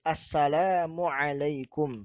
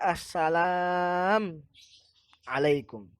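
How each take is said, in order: First: The two words are joined by a linking vowel. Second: The two words are separated, without a linking vowel. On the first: The speaker calls it right. "harus disambung" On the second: The speaker calls it wrong. "Tidak boleh misal dibaca"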